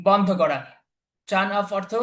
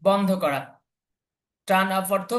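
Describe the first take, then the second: The two takes are said the same way.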